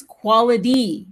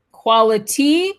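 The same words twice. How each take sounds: First: Fast, flapped T. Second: Said in the usual way. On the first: Shown as a demonstration. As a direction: rush "quality" so the T sounds like a D. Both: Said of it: "if you say it fast".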